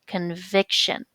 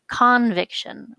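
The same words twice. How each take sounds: First: The stress is on the middle syllable. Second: The stress is not on the middle syllable. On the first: The speaker calls it right. "the stress is on the next to the last syllable" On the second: The speaker calls it wrong. "as opposed to"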